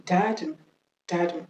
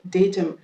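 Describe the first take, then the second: First: DATUM said "DA-tum"; American DATUM, "dah-tum"; American pronunciation. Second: DATUM said "DAY-tum"; British DATUM, "DAY-tuhm"; British pronunciation. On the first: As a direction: say DATUM with an "ah" first syllable. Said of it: "l'accent américain". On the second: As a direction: say DATUM with a "day" first syllable. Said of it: "l'accent british". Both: Shown as a demonstration.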